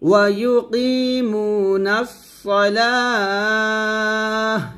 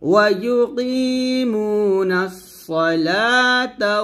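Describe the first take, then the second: First: The last word ends in a lengthened h sound. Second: The last word ends in ta, running straight on. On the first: The reciter stops at the end of this phrase. "এখানে ওয়াকফ ধরলে তাটাকে আমরা হা উচ্চারণ করব।" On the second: The reciter joins this phrase to the next words. "আবার এখান থেকে মিলাবো।"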